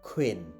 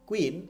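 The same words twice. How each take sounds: First: The first k sound has a strong puff of air. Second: The first k sound is plain, without a puff. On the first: The speaker calls it right. "এটা হচ্ছে কি খ sound" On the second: The speaker calls it wrong. "So এটা not কুইন"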